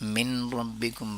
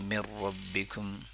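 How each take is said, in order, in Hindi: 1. n का उच्चारण r से पहले साफ़ सुनाई देता है। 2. n, बाद वाले r में मिल जाता है।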